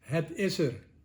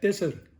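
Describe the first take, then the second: First: Each word is said separately and in full. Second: The words are run together into one word. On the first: "De Nederlander zegt niet het is er" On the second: "Hij zegt tisser"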